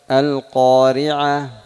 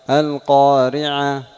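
The two takes are said the same way.

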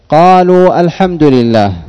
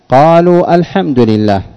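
First: A glottal stop is pronounced before 'al-hamdu'. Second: The same.

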